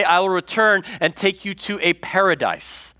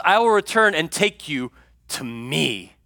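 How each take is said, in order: First: Said in the usual way. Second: "I will return and take you to me" slowly, leaning on "me"; slow stress on to me. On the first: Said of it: "He says". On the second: Shown as a demonstration. Preacher correcting the congregation's hope, slow and deliberate. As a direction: set the true words apart from the false version, slowly. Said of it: "He doesn't say".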